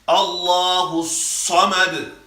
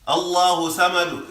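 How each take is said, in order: First: The S sound is heavy and strong. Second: The S sound is light and thin. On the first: The speaker calls it right. "Make sure you get that strong Samad" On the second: The speaker calls it wrong. "If you read it light, Allahu Samad is wrong"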